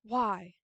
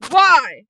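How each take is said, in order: First: Quiet, restrained asking; subdued question. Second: Loud, raised demand; acted yelling. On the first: Acted. Kira questioning Hyden behind the door, quiet restrained question. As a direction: ask it under your breath. First take, before the yelled one. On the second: Kira questioning Hyden behind the door, loud yelled demand. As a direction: burst out with the question. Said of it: "Absolute blood curdling, just yelling".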